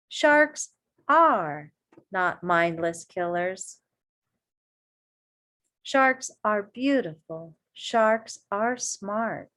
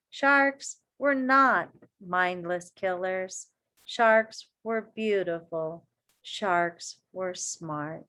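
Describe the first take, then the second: First: Slow, firm, each "Sharks" stressed; present tense emphatic. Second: Slow, each "Sharks" stressed; emphatic statements. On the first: Teacher restating facts to kids, firm. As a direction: restate it as fact, "Sharks" hit. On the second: Reading the key lines to kids, emphatic. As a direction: pound each "Sharks" slowly. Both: Shown as a demonstration. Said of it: "I want to change that".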